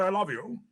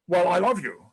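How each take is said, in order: First: Said in the usual way. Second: Firm, louder heartfelt I love you; said like he means it. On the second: Shown as a demonstration. Husband proves to his wife he means it, louder and earnest. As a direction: put real weight on love. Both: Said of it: "say it like you mean it".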